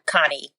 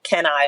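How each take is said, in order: First: It sounds like the single name 'Connie'. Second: It sounds like the two words 'can I'. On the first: "depending on who, you know, how you pronounce it" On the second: "depending on who, you know, how you pronounce it"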